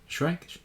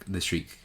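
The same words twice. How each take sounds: First: Shrike said with an eye vowel, like shryke, rising; "Shrike?" as shryke, questioning; Shrike pronounced. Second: "Shriek" as shreek; Shriek pronounced. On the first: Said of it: "No, Shrike Queen". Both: Real, not acted.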